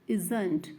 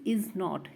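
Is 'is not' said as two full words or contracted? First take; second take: contracted; full. First: The words are merged into one word, 'isn't'. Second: Both words 'is not' are said in full.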